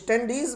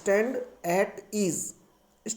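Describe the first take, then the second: First: The words are run together into one word. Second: The words are said as three separate words. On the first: The speaker calls it wrong. "वो स्टैंडीज word नहीं होता" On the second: The speaker calls it right. "Right word होता है स्टैंड एट ईज"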